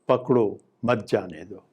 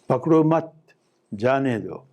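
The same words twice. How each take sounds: First: There is a pause after the first word. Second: There is a pause after the second word. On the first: Catch him and do not let him go. "if I pause after pakdo" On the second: Do not catch him, let him go. "if I say pakdo mat"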